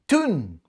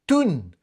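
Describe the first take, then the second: First: The vowel is a Geordie 'oo' sound. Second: The same.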